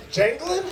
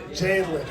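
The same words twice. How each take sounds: First: Janglin said as TJANG-glin, rising; name read wrong. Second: Janglin said lower as TJANG-lin, falling; name tried again. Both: Real, not acted. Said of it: "Did I say it wrong?".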